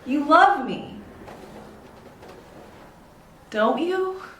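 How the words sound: The voice rises at the end. The speaker is unsure of the answer. "I don't know the answer"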